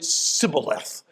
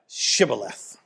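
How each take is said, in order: First: The word begins with an s sound. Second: The word begins with an sh sound. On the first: The speaker belongs to the group trying to pass. The speaker calls it wrong. "They pronounced it Sibboleth. They couldn't get the H" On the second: The speaker belongs to the group guarding the way. The speaker calls it right. "say Shibboleth"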